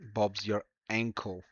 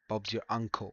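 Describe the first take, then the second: First: The last word's vowel sounds like 'ankle'. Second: The last word's vowel sounds like 'uncle'. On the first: The speaker calls it wrong. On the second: The speaker calls it right.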